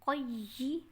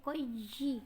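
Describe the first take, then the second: Both takes have the same delivery.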